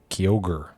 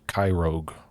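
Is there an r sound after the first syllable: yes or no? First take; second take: no; yes. First: The name is said without an r after Ky. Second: The name is said with an r after Ky. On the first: The speaker calls it right. "I think that's how you say it" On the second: The speaker calls it wrong. "I always called it Kyrogue for the longest time"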